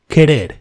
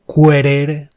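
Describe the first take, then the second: First: The u after the q is silent. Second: The u after the q is pronounced. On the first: The speaker calls it right. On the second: The speaker calls it wrong.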